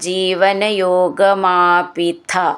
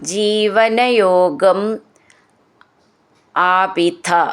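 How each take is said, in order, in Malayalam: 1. വാക്കുകൾ ചേർത്ത് ഒറ്റ വാക്കായി പറയുന്നു. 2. വാക്കുകൾ വേർതിരിച്ചാണ് പറയുന്നത്, ചേർക്കുന്നില്ല.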